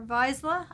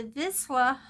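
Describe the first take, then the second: First: Vizsla with a long i, VYEZ-luh; alternative pronunciation. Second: Vizsla with a short i, VIZ-luh; first pronunciation. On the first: Colorist unsure of the breed name, alternative pronunciation of Vizsla. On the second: Colorist reading out a dog breed list, first pronunciation of Vizsla. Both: Shown as a demonstration. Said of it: "not sure how that's pronounced".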